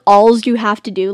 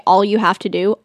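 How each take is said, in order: First: Alls said with a z sound on the end; added S. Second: Said in the usual way. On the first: Shown as a demonstration. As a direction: add an s to all, "Alls". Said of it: "I have to add an S". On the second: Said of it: "people just say".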